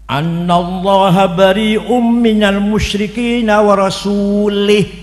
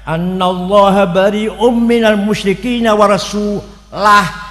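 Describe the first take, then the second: First: The final word ends with an i vowel. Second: The final word ends with an a vowel. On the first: God and the Messenger are both disowned as protectors. The speaker calls it wrong. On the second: The Messenger, like God, disowns the idolaters. The speaker calls it right. "Yang benar bacanya"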